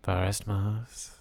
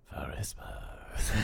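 First: Slow, soft, drawn-out name; mock-dramatic name reveal. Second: Slow, breathy echo in a whisper; whispered name. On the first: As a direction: savour each syllable softly. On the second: Pretend. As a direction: whisper it long, like a mysterious reveal. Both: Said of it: "Never said your name like I say that".

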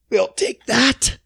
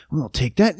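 First: Slow, high smug take; drawn-out high mock official; smug greedy official. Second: Said in the usual way. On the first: Mocking greedy authorities.

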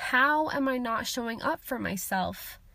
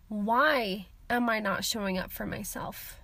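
First: "How" stressed as the question word, the rest even. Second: "Why" stressed as the key word, the rest lower. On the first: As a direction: lean on "How" at the start of the question. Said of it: "rather than asking". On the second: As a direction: lean on "Why" at the start of the question. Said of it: "I need to ask". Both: Shown as a demonstration.

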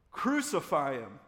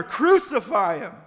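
First: Loud, drawn-out crowd shout; shouted back. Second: High, full-force slow roar; mob's roar. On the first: Crowd answering Pilate about Jesus, shouting back. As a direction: shout the verdict slowly. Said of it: "they shouted back". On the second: Mob drowning out Pilate's question, roaring. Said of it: "the mob roared even louder". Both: A narrator's reading.

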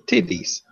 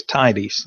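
First: "Titties" with a short i, pitched up; misread tidies. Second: Plain, clear "tidies" with a long first vowel; correct reading of tidies. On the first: Retold or imitated. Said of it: "one girl read it". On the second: Shown as a demonstration. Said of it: "the word is tidies".

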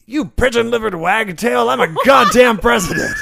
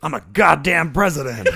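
First: High, loud outraged bellow; furious shout. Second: Laughing quote. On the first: Acted. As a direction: roar your outrage at her. President character furious at attacker. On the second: Shown as a demonstration. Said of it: "repeat line, laughing".

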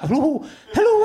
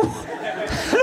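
First: High, laughing comedy Scottish hello; comedy Scottish accent. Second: Put-on whispered, laughing hello in a comedy Scottish accent; comedy Scottish accent, fading. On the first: Retold or imitated. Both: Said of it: "I can't get enough of a comedy Scottish accent".

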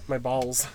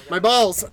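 First: Said in the usual way. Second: High, loud yell of pain. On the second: Real, not acted. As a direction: shout it out in sudden pain.

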